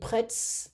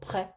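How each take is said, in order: First: The word ends with an audible s sound. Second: The word ends without any s sound. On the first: The speaker calls it wrong. "I don't pronounce the S. I'm not saying prêts" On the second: The speaker calls it right. "No, prêt. That's it"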